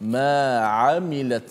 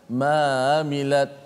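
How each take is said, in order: First: A clear throaty Ain sound comes before amilat. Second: The Ain sound is loose and blends into mamilat. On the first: The speaker calls it right. "Huruf Ain berada di tengah halqum" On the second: The speaker calls it wrong. "dia akan jadi longgar, dia akan jadi mamilat"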